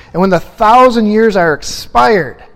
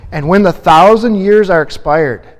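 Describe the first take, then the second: No difference in how they are said.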